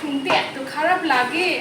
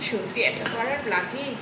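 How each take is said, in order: First: It is said flatly, without emotion. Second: It is said with a disgusted expression. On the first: It is simply what people write. "কমেন্টে লেখে তো এইভাবেই লেখে" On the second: It acts out the reaction people feel. "আমি হয়তো এক্সপ্রেশনটা দিয়ে দিলাম"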